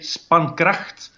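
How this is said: The name is said with a Dutch pronunciation. "In Dutch, you say spankracht"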